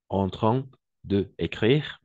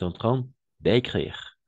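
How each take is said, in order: First: The word 'de' is said fully before 'écrire'. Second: The vowel of 'de' is dropped into 'écrire'. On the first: The speaker calls it wrong. "ça ne fonctionne pas tout à fait" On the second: The speaker calls it right. "l'élision, d'écrire"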